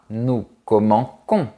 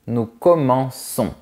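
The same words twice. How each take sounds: First: The consonant before -ons is a hard k. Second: The consonant before -ons is a soft s. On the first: The speaker calls it wrong. "On ne dit pas nous commençons" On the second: The speaker calls it right. "on dit nous commençons"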